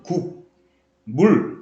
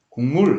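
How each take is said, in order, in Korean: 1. 음절을 천천히 따로 발음합니다. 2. 음절을 빠르게 발음해서 이어집니다. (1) "실제 그대로 소리를 내려면 국, 물 이렇게 소리를 내야 된단 말이야" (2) "빠르게 발음하게 되면 ... 이렇게 발음이 돼요"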